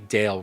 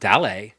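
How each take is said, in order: First: It is said with an English pronunciation. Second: It is said with a Spanish pronunciation.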